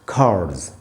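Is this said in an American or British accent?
American. The r is sounded with a curled tongue. "American English में इसको पढ़ेंगे कार्ड्स"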